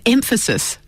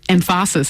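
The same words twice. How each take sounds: First: The stress falls on the usual syllable. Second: The stress falls on a different, later syllable.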